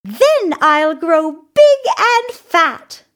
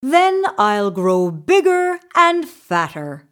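First: High, loud little goat, slowly savoring it; tiny goat voice, high and drawn out; slow, high-pitched small creature. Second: Lightly voiced middle goat; a hint of goat character; middle-sized goat. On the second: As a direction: say it as a medium-sized goat, only slightly raised. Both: A narrator's reading. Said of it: "he said".

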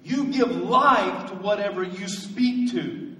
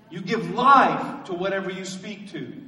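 First: "life" leaned on, slow and deliberate; slow emphatic statement. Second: Said in the usual way. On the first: Shown as a demonstration. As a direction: spell out each word, x0.7 slow. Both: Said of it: "let me give you a statement".

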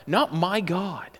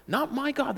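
First: Not drawn out slowly; slow, weighty Not my God; stress on not. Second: My lifted higher, softer; higher, lean on my; stress on my. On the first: Preacher correcting the thought, slow emphatic Not. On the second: Preacher repeating it to stress my. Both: Shown as a demonstration.

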